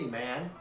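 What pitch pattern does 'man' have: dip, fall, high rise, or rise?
rise. The pitch rises from a lower level. "Chinese has a second rising tone similar to this one here"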